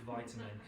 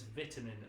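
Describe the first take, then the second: First: It is said with an American English pronunciation. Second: It is said with a British English pronunciation. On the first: The speaker calls it wrong. "not vitamin" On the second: The speaker calls it right. "I always have to shout to pronounce that word properly"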